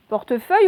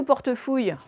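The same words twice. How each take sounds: First: PORTEFEUILLE with a clear "euille" ending; trying both readings. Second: PORTEFOUILLE with "ouille" in place of "euille"; trying both readings. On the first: Teacher testing two readings, clear "euille" in PORTEFEUILLE. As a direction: sound out PORTEFEUILLE as the first option. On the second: Teacher testing two readings, clear "ouille" in PORTEFOUILLE. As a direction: sound out the wrong option PORTEFOUILLE. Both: Shown as a demonstration. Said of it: "vous essayez".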